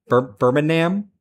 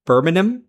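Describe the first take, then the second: First: "Birmingham" slowly as BUR-min-am, full final vowel, rising; attempted pronunciation without G. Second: "Birmingham" as BUR-min-um, rising into a question; attempted local pronunciation. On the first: Streamer reading as written, "Birmingham" as BUR-min-am, hesitant question. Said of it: "I don't pronounce G and H". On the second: Streamer trying a viewer's spelling, "Birmingham" as BUR-min-um, questioning. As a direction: try "Birmingham" with no G and a swallowed last vowel, questioning. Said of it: "in the manner you intended me to say it". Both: Shown as a demonstration.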